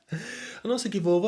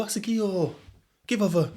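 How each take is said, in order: First: Said in the usual way. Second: "give over" in broad Sheffield, raised high; Sheffield accent. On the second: Shown as a demonstration. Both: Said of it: "a Sheffield boy".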